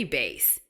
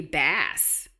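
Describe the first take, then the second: First: "bass" with a long a, rhyming with face, said as base. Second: "bass" with a short a as in cat, rhyming with pass. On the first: Parent correcting a child's spelling, "bass" with a long a. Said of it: "that's gonna be bass". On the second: Parent showing a child the wrong "bass", with a short a. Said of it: "It's not gonna be bass". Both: Shown as a demonstration.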